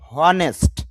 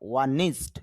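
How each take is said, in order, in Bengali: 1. শব্দটি 'h' ধ্বনি দিয়ে শুরু হয়। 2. শব্দটি সরাসরি একটি স্বরধ্বনি দিয়ে শুরু হয়। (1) "এইচ অ হ এন ই নে, হনেস্ট" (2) "কিন্তু আইপিএ বলতেছে না, হনেস্ট হবে না"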